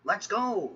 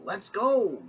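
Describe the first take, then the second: First: Eager call, high and bright; excited. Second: Eager call pushed louder; louder excited. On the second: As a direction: repeat it louder and more thrilled. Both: Acted. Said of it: "James puffed excitedly".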